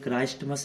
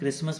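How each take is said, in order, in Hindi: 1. यह शब्द t की आवाज़ के साथ बोला जाता है। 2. यह शब्द t की आवाज़ के बिना बोला जाता है। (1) "क्राइस्टमस नहीं बोलते" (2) "इसको हम क्रिसमस बोलते हैं"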